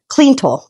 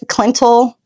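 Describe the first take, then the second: First: The first syllable has a long 'ee' vowel. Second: The first syllable has a short 'i' vowel. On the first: The speaker calls it right. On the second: The speaker calls it wrong.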